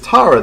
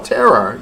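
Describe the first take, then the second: First: The first vowel sounds like the one in 'car'. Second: The first vowel sounds like the one in 'bed'. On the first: This is how the caller said the name. "I'm like, "Is Tara there?"" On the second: This is how her family said the name. "her parents called her Terra"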